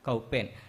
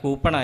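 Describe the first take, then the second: First: The first syllable sounds like 'cow'. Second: The first syllable sounds like 'coo'. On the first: This is an old local way of saying the word. "എൻ്റെ വല്യമ്മ മരിക്കണ വരെ പറഞ്ഞ വാക്ക് കൗപ്പേൻ എന്നായിരുന്നു" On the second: This is the actual borrowed word. "കൗപ്പേൻ എന്ന് പറയുന്നത് കൂപ്പണാണെന്ന് മനസ്സിലായത്"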